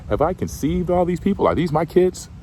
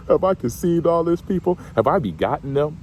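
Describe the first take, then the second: First: High, exasperated complaint to God; whiny Moses. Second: High, incredulous protest; can you believe this, God; whiny Moses. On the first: Moses whining to God about the people, high and exasperated. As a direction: Moses throwing up his hands at God. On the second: Moses protesting to God that these aren't his kids, high and incredulous. Preacher voices Moses complaining again. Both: Retold or imitated.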